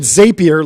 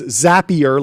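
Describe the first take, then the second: First: It rhymes with rapier. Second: It rhymes with snappier. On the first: The speaker calls it wrong. "like a rapier" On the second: The speaker calls it right. "like Snappier"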